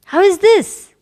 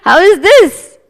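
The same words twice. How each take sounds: First: High, loud rhetorical question; emphatic rhetorical question; exclaimed question. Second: Loud, high exclamation; hammed-up emphatic question; exclaimed question. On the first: Acted. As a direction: ask it with exaggerated wonder. Repeated exclamation. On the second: Preacher exclaiming to audience.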